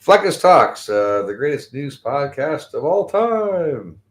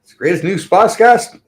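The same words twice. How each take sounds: First: Drawn-out, lightly announcer-ish; slow mock intro. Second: High, loud hammed-up announcer; mock podcast intro. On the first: Host retrying his podcast intro, slow and drawn out. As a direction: stretch the intro out slowly, half-remembered. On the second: Host opening his podcast with a loud mock announcer voice. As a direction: belt out the show's intro like a hype host. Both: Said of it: "how the intro goes again".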